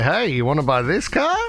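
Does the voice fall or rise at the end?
rise. The pitch rises at the end of the sentence. It sounds less convincing as a sales pitch. The speaker calls it wrong. "we go up"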